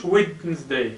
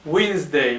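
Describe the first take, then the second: First: Wednesday with the d wrongly pronounced, wid-nz-day; mock error, sounding the d in Wednesday; wrong d sounded. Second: Wednesday said as winzday, no d; teacher models Wednesday with the d silent. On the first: Teacher shows pupils the wrong Wednesday. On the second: Teacher shows pupils Wednesday, d silent. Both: Shown as a demonstration. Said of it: "ما كنقولش Wednesday".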